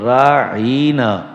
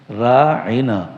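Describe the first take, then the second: First: The vowel before 'na' is drawn out long. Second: The vowel before 'na' is short. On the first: O our shepherd. The speaker calls it wrong. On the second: Please be considerate of us. The speaker calls it right.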